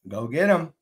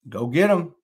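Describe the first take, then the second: No difference in how they are said.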